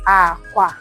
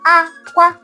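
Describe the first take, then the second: First: Both syllables are said on a low tone. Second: Both syllables are said on a high tone. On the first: "The low, low is called aqua" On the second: "the high, high is called aqua"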